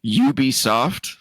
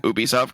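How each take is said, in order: First: "Ubisoft" with a leading "you" sound; Ubisoft said YOO-bee-soft. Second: "Ubisoft" opening on "oo", no y; Ubisoft said OO-bee-soft. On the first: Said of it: "I hate that name". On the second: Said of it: "I'm always saying Ubisoft 'cause". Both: Shown as a demonstration.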